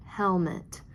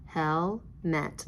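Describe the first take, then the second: First: "Helmet" as one joined word; syllables blended together. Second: "Helmet" as hel, pause, met; separated syllables. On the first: Teacher putting "Helmet" together for pupils, blended into one word. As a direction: run hel and met together into "Helmet". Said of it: "let's put it together". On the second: Teacher sounding out "Helmet" before joining it, syllable by syllable. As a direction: say "Helmet" in two separate pieces. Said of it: "Now let's put it together". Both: Shown as a demonstration.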